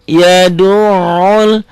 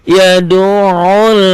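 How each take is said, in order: Both takes have the same delivery.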